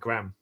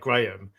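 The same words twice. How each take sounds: First: The name is said in an American accent. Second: The name is said in a British accent. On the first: "Americans pronounce it Graham" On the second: "we pronounce that Graham"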